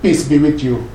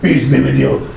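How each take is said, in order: First: The greeting is said in a warm, sincere tone. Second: The greeting is said in a grudging, hostile tone. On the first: The speaker truly wishes peace on the other person. The speaker calls it right. "instead of saying" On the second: The speaker does not really wish peace on the other person. The speaker calls it wrong. "Is there any peace there? No"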